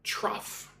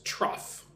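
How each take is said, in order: First: Trough, said softly and slowly as "troff". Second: "trough" said as troff, quiet model. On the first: Answering a student's question, modelling the word softly. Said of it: "How to pronounce trough?". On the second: Teacher showing students how to say the word, modelling softly. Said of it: "Say it like this". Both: Shown as a demonstration.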